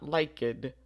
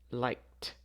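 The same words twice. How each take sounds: First: The ending is not pronounced as a t. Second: The ending is pronounced as a t sound. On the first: The speaker calls it wrong. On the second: The speaker calls it right. "the final sound is a K, so we would say liked"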